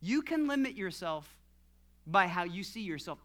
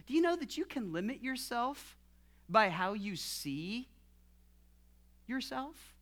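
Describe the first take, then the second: First: Falling statement, dropping lower on "by how you see yourself"; firm statement. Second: Rising question, pausing before "yourself". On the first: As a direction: state it as fact, letting "yourself" fall. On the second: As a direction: ask it, lifting "yourself" after a long pause. Asked first, then stated. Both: Real, not acted.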